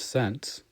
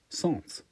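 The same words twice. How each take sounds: First: The word is said with an English pronunciation. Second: The word is said with a French pronunciation. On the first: The speaker calls it wrong. "which is actually being pronounced wrong" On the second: The speaker calls it right. "because it's a French word. It's cent"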